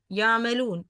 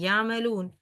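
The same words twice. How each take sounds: First: يعملون said easy, no pressed damma; relaxed يعملون without stress on the waw; plain يعملون. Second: يعملون with the damma pressed harder; over-stressed يعملون. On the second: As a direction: lean hard on the damma in يعملون. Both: Shown as a demonstration. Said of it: "without stressing or without emphasizing".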